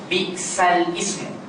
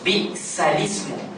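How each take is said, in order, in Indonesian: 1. Lam terputus sebelum ismu yang berdiri sendiri. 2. Lam diberi kasrah i dan menyambung ke ismu. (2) "Sebenarnya bi'salismu. Jadi kasrah itu milik lam"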